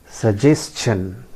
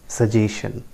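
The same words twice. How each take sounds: First: Suggestion drawn out slowly as su-JES-chun; correct pronunciation. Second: Suggestion without the T, su-JAY-shun; common mispronunciation. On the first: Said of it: "the correct pronunciation is". (suggestion का सही उच्चारण, धीरे से स-जेस-चन) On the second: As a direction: say suggestion with a long AY and plain SH. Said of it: "that is not the correct pronunciation". (suggestion का गलत उच्चारण, स-जे-शन) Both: Shown as a demonstration.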